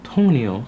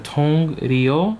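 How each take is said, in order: First: The second syllable starts with an N sound. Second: The second syllable starts with an R sound. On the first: It is easier to pronounce. The speaker calls it right. "usually you would just say tong neo" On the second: Each letter is read as it is written. The speaker calls it wrong. "this would be like a R with a Y O, so tong rio"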